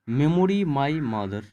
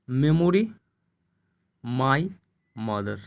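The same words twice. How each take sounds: First: Said in the usual way. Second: Long pauses between "Memory", "my" and "mother"; word by word. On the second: Shown as a demonstration. Teacher splits phrase to show sounds.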